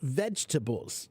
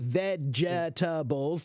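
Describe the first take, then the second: First: The word is said without an added j sound. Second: The word is said with an added j sound. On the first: The speaker calls it right. "The word is vegetables" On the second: The speaker calls it wrong. "You don't say vegetables. There's not this j in there"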